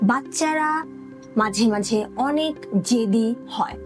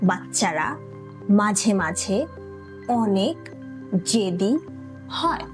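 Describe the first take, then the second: First: The sentence is said at normal speed. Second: The sentence is said slowly.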